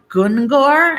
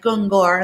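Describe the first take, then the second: First: High, louder disbelieving Gungor?; incredulous coworkers. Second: Said in the usual way. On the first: Retold or imitated. Coworkers hearing the strange name, disbelieving. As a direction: repeat Gungor? like it's absurd. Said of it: "and they're like". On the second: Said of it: "And they're like".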